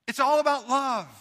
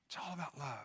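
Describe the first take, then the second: First: Louder, higher, driving it home; emphatic proclaim. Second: Much softer, near-breathless repeat; hushed echo. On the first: Preacher proclaims love to his congregation, emphatic. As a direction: proclaim the point to the church. Repeats the line as a contrast. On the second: Preacher echoes it hushed for the congregation, soft. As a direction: let the words sink in softly. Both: Real, not acted.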